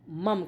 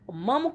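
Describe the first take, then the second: First: The final vowel is dropped, ending in a consonant. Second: The final syllable keeps its full vowel. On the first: The speaker calls it wrong. "कहते नहीं" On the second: The speaker calls it right. "मम में हलंत नहीं होता है"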